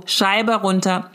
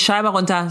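First: Scheibe runter drawn out word by word; slow, insistent order at the car window; slow demanding command. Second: Said in the usual way. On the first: Shown as a demonstration. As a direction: spell out each word of the order slowly.

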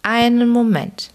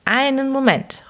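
First: Put-on high, wailing call of an old man; old man calls from the doorway, whining. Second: Even higher, plaintive repeated plea; old man repeats his whining call, pitched higher. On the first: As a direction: cry out plaintively to stop them. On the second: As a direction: wail it again, more desperate. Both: A narrator's reading. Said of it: "rief eine jammernde Stimme".

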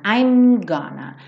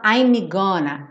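First: "I'm gonna" with a held M straight into G; no vowel after M. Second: "I'm gonna" with an extra ee after the M; learner's "ai-mee gonna"; wrong pronunciation. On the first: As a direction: model "I'm gonna", lips closing before "gonna". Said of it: "não tem outra vogal depois do M". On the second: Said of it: "nada de falar I'm gonna". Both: Shown as a demonstration.

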